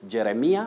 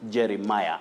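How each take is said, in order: First: It uses the common local pronunciation. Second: It uses the standard pronunciation. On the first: The speaker calls it wrong. "Locally, we are fond of saying Jeremiah" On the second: The speaker calls it right. "the pronunciation of the name is Jeremiah"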